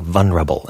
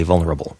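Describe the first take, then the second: First: VULNERABLE with the L dropped, "vun-rable"; vulnerable without the L. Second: VULNERABLE with a clear L before the N. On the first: Retold or imitated. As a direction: drop the L from vulnerable. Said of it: "I've heard now several people on the radio". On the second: Shown as a demonstration. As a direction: say the real L in vulnerable. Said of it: "With a real L".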